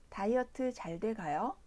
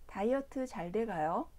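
No difference in how they are said.

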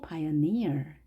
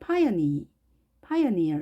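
First: The stress is on the last syllable. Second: The stress is on the first syllable. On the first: The speaker calls it right. "뒤에 강세를 주겠습니다" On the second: The speaker calls it wrong. "이것을 pioneer 이렇게 하지 않고"

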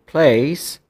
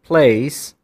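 No difference in how they are said.

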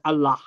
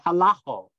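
First: The word ends in an open A sound. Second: The word ends in an O sound. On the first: "they don't say Allah" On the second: "the final aleph becomes an O sound in Western Aramaic"

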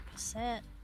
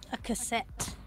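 First: The words are said casually and run together. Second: Each sound is articulated crisply and distinctly.

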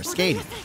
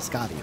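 First: The first vowel sounds like the 'a' in 'day'. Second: The first vowel sounds like the 'a' in 'father'. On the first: The speaker calls it wrong. "I don't know if I'm pronouncing it right. I don't think I am" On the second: The speaker calls it right. "The A right as in Arknights. ... Got it"

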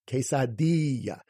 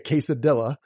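First: The I before the L sounds like long 'ee'. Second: The I before the L sounds like short 'ih'. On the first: The speaker calls it right. "that I makes the E sound" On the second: The speaker calls it wrong. "Nobody calls it really a quesadilla unless you're making fun of it"

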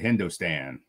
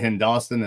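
First: The name has a non-local pronunciation. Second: The name has the local Hoosier pronunciation. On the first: This is how outsiders say the name. The speaker calls it wrong. "they'll get super mad at you if you call it HINDOSTAN" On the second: This is how locals say the name. The speaker calls it right. "You got to say it with that Hoosier dialect"

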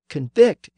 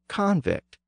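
First: The stress is on the second syllable. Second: The stress is on the first syllable. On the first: It is the verb meaning to find someone guilty. "Convict is the verb form" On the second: It is the noun meaning a convicted person. "with the stress on the first syllable"

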